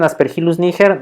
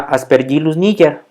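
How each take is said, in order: First: It is pronounced plainly, as the spelling reads. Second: It is pronounced following Latin pronunciation rules. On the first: This is an accepted, permitted exception. "si le dicen Aspergillus niger no hay mucho problema" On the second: This is the more correct, elegant pronunciation. "con esas reglas"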